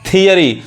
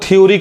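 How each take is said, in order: First: The word begins with a 'thee' sound. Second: The word begins with a gliding 'thyo' sound. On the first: The speaker calls it right. "सही उच्चारण क्या है" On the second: The speaker calls it wrong. "बहुत लोग थ्योरी कहते हैं"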